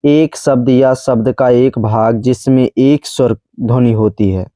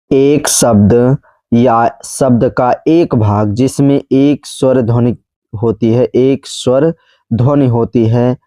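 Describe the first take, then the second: First: Said in the usual way. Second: Slow, spaced-out definition; measured teacher repeat, pausing between phrases; slow dictation. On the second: Shown as a demonstration. Repeats definition slowly for learners.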